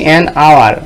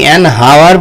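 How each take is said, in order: First: The word hour starts with a vowel sound. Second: The word hour starts with an h sound. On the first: The speaker calls it right. "আমরা বলছি অ্যান আওয়ার" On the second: The speaker calls it wrong. "আমরা কি অ্যান হাওয়ার বলি? বলি না"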